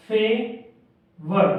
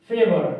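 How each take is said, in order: First: favour stretched very slow; slow teaching demo of favour; drawn-out word. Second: Said in the usual way. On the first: Shown as a demonstration. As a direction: draw out favour slowly for the class. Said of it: "फे और वर".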